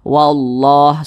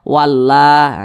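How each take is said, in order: First: The L sound is thick and heavy. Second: The L sound is thin and light. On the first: The speaker calls it right. "dibaca tebal" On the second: The speaker calls it wrong. "Jangan dibaca tipis"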